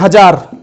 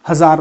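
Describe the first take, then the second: First: The middle consonant is a 'j' sound. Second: The middle consonant is a 'z' sound. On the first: The speaker calls it wrong. "लोग बोल देते हैं" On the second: The speaker calls it right. "नुक्ता के साथ"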